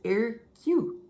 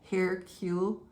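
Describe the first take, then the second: First: The initial H sound is silent. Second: The initial H sound is pronounced. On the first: "That's how he says" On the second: "they say the H, like Hercule"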